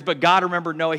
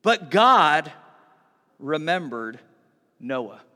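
First: Said in the usual way. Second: "But God" punched loud, then a pause before "remembered" and another before "Noah"; dramatic pauses. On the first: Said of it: "He hears". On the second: Retold or imitated. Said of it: "he says these words".

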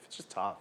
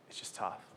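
First: Said in the usual way. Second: Breathy whisper, no voice at all. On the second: Real, not acted. Pastor whispering the point to his congregation. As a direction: drop to a whisper on the repeat. Repeats line, then whispers it.

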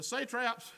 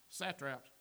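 First: "satraps" said as SAY-traps; long A in the first syllable of "satraps"; long-A pronunciation. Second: "satraps" said as SAT-raps, lower and softer; short A in "satraps", like "sat"; short-A pronunciation. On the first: Tries two pronunciations of the word. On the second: Corrects the pronunciation, quieter. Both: Shown as a demonstration.

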